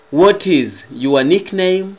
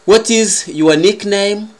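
The two takes are said the same way.

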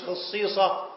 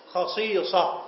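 First: خصيصة said as khisīsa, short i at the start, slowly; the mistaken خصيصة, drawn out to flag it; the wrong way to say خصيصة; wrong pronunciation. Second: خصيصة said as khaṣīṣa, long ī in the middle; the right way to say خصيصة; correct pronunciation. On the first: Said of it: "مش". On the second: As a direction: say خصيصة with a clear long ee sound. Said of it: "مفرد خصائص". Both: Shown as a demonstration.

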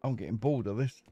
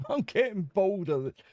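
First: Said in the usual way. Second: Laughing through the repeated complaint; a laughing, amused repeat. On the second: Real, not acted. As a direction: chuckle it out.

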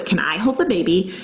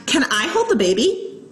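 First: Said in the usual way. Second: Put-on "Can I hold the baby" higher, rising as a question; questioning tune on "Can I hold the baby"; asking. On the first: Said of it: "what she actually said was". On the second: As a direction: ask "Can I hold the baby" with a lift at the end. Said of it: "I asked".

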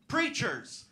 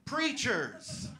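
First: Higher, loud ringing call; preacher boom. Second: Preacher echo. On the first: Comic naming her family trade, preacher-style call. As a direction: proclaim it from the pulpit. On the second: Comic repeating the word, preacher-style echo. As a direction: echo it like an amen. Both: Pretend. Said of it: "Yeah, sorry".

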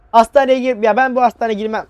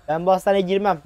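First: Higher, louder panicked refusal; scared refusal. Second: Said in the usual way. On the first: Real, not acted. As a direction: balk at the hospital in real fright. Scared refusal in horror game.

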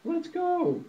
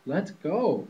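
First: Very high honking goose voice; squeaky, high-pitched goose honk. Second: Slightly higher, louder mock quack voice; lightly voiced quacking duck. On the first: Acted. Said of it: "honked Goosey Lucy". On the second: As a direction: chirp it out like an eager duck. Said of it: "quacked Ducky Lucky".

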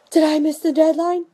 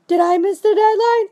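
First: Imitating a worried customer asking; mock panicked customer. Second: Higher, louder panicky customer; mock panic rising. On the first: Customer calls the seller, asking in mock worry. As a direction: caller worried she missed it. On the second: Customer calls the seller again, now louder and panicking. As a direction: ask it again with growing panic. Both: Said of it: "you're gonna get calls saying".

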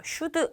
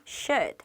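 First: Should said wrongly with an extra vowel, like "슈드"; should mispronounced as "슈드"; wrong pronunciation. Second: Should said short and clipped, no vowel after d; should correctly ending on a soft d; right pronunciation. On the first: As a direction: say should with a final 드 syllable added. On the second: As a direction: say should as one tight syllable. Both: Shown as a demonstration. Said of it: "should 아니에요".

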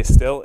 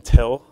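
First: "still" with only a short puff of air after the s; crisp demo "still", short-puff t; unaspirated t. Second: "till" with a long puff of air on the t; aspirated t. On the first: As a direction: say "still", barely any breath on the t. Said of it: "we would get a short puff of air". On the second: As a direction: say "till", breathing out hard on the t. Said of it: "It had that really long puff of air". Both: Shown as a demonstration.

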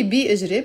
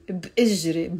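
First: بإجري as separate "bi-ijre"; full vowel on B. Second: بإجري with no separate "i" after B; vowelless B. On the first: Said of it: "You can say ... but pronounce it ب". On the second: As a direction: say بإجري as "bijre", bare B. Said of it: "pronounce it ب ... Put a spoon on the B". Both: Shown as a demonstration.

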